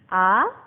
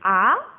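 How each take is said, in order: First: The pitch rises like a surprised question. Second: The same.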